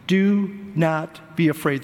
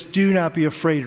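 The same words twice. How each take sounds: First: Slow it down and lay out "Do not be afraid" gravely; slow solemn quote. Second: Said in the usual way. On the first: Shown as a demonstration. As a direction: Do not be afraid, slowly, each word weighed. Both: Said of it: "Three times in the passage I read".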